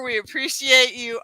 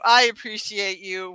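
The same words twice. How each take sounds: First: Appreciate stressed, we unstressed. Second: I stressed, appreciate lighter. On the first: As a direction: lean on appreciate in we appreciate you. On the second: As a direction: hit the word I in I appreciate you. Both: Shown as a demonstration.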